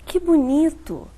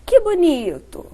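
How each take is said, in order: First: Drawn out, sarcastic; slow ironic tone. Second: Bright, warm praise; admiring tone. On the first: Speech therapist demonstrating ironic intonation. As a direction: say it slowly, meaning the opposite. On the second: Speech therapist demonstrating praising intonation. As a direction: say it as real delight. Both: Shown as a demonstration. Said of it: "eu coloquei uma entonação diferente".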